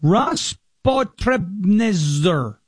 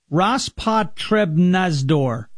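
First: Rospotrebnadzor sounded out very slowly, syllable by syllable, ending "nezer"; careful first try at Rospotrebnadzor; sounding out a name. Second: Rospotrebnadzor drawn out slowly, each syllable clear, ending "-nadzor"; slow careful Rospotrebnadzor, getting it right; second try at a name. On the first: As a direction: stumble slowly through Rospotrebnadzor, trailing off on the end. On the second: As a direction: spell out Rospotrebnadzor slowly, landing the "dzor". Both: Shown as a demonstration. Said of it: "what is this name?".

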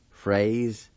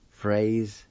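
Both takes have the same delivery.

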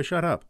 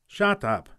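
First: Said in the usual way. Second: Short, sharp and higher, cutting him off; curt shut up. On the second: Acted. Gruff McLeod shuts the boy up, curt. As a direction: snap it shut like a gruff farmer.

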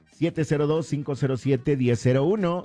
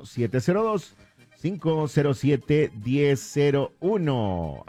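First: Said in the usual way. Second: Phone number spelled out slowly, stretching to the end; slow dictation. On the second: Real, not acted. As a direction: dictate it slowly so listeners can note it. Repeats number slowly for listeners.

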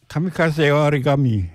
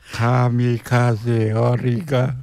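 First: Said in the usual way. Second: "Kamikaze origa-" split into slow separate syllables; ka-mi-ka-ze o-ri-ga, each syllable punched; punching each syllable. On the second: Shown as a demonstration. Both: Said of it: "break it up into syllables".

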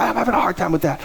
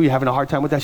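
First: Higher-pitched retort in her voice; imitated complaint. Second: Said in the usual way. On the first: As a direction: echo it back as a higher, put-on grumble. Acting the woman's complaining answer.

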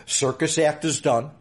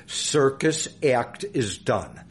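First: Said in the usual way. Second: "Circus act is done" slowly, word by word; deliberate repeat. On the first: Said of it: "what I just said". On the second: Shown as a demonstration. Guest flags "Circus act is done" for a later question, slow and deliberate. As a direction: spell out "Circus act is done" at half speed so it sticks. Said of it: "remember that for a later question".

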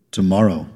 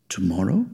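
First: Low tomorrow, falling at the end; confirming tomorrow. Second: Low, soft tomorrow, rising at the end; questioning tomorrow. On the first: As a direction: settle tomorrow as a firm answer. Confirms the question. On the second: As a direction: ask tomorrow with a clear upward lift. Tentative question, then answered. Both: A narrator's reading.

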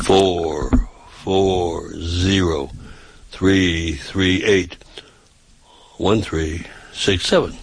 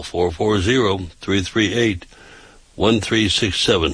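First: Phone number drawn out, very slow; slow and deliberate. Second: Said in the usual way. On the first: Shown as a demonstration. Repeating the phone number for listeners who find it too fast, slowly. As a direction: stretch each digit, pausing between groups. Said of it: "I'd say it slow". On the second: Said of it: "you say it too fast".

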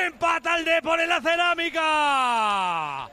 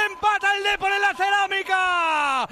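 First: High, slow, loud sign-off call; slower closing goal call. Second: High loud triumphant call; shouted goal call. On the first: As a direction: draw out the final announcement. Repeated call, slower and fading. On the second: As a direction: roar out the equaliser. First call of the equaliser. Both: Real, not acted.

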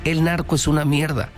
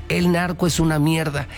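Both takes have the same delivery.

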